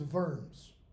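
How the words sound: The word has a German pronunciation. "The German pronunciation is Worms"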